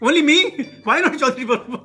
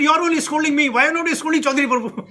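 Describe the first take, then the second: First: Put-on laughing while repeating the child's protest. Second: Put-on higher, louder child's protest; a little boy complaining he alone is scolded; annoyed child. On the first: Preacher repeating the boy's line to the audience, amused and laughing. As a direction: retell the boy's complaint through chuckles. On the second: Boy protesting to his scolding mother, higher and louder. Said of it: "So he got very annoyed".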